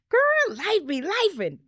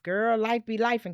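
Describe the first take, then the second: First: It sounds upbeat and positive. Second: It sounds weary and negative.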